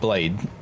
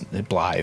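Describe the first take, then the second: First: The name ends with a plain 'd' sound. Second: The name ends with a soft 'th' sound. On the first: The speaker calls it wrong. "I was saying his name wrong" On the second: The speaker calls it right. "his Blythe"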